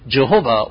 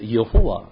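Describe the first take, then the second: First: The name is said the usual English way. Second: The name is said the Hebrew way. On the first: "it is being pronounced as Jehovah" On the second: "if I pronounce it from Hebrew way, it must be said as"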